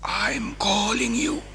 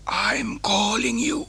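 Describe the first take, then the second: No difference in how they are said.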